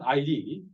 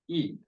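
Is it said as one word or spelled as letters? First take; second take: letters; word. First: It is spelled out as two letters. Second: It is said as one short word. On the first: The speaker calls it wrong. "not I D" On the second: The speaker calls it right. "First one, id"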